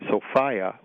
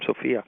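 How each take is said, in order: First: It uses the speaker's special goddess pronunciation. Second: It uses the ordinary woman's-name pronunciation. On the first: It names the earth goddess. "which is my pronunciation to kind of distinguish it from a woman's name" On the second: It is a woman's first name. "a woman's name"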